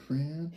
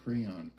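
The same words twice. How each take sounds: First: "Crayon" squeezed to cran, rising; crayon said one syllable. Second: "Crayon" as cray-on, falling; crayon said two syllables. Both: Shown as a demonstration. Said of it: "How do y'all say it?".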